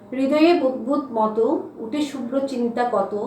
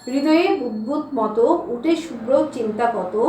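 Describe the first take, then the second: No difference in how they are said.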